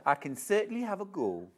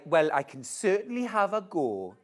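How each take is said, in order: First: Quicker second Geordie take; faster Geordie attempt. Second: Put-on first try at a Geordie accent; testing out a Geordie lilt; attempted Geordie. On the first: A second Geordie try for the viewer. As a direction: rattle it off in Geordie. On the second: A Geordie accent tried for a viewer's request. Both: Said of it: "can you do a Geordie accent".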